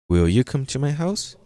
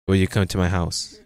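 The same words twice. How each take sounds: First: It is said with a questioning tune. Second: It is said with a flat statement tune. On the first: The speaker calls it right. "question mark. Will you come to my house? With that tone" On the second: The speaker calls it wrong. "not will you come to my house?"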